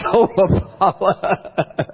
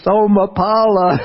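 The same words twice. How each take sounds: First: Slow, stretched call with a laugh; drawn-out call. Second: High, loud call into the night; yell a name. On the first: Monk calls the villager again, slow and laughing. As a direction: drag the name out, half laughing. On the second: Monk calls out to neighbour at night, a high loud yell. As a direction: shout for the villager down the hill. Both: Retold or imitated. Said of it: "I go outside the kuti and I yell".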